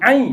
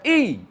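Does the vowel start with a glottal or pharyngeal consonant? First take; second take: pharyngeal; glottal. First: The vowel starts with a pharyngeal consonant. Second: The vowel starts with a glottal stop. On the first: The speaker calls it right. "Ai, bukan i. ... Dia ain pepak dia" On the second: The speaker calls it wrong. "bukan i. ... Itu hamzah"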